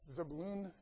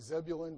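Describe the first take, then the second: First: The stress is on the last syllable. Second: The stress is on the first syllable. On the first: This is the Hebrew way of saying it. "In Hebrew, the emphasis is almost always on the last syllable" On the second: This is the familiar English way of saying it. "I suppose you could say Zebulun, but that's a town in North Carolina"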